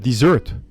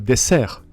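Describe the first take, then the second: First: The word has an English pronunciation. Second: The word has a French pronunciation.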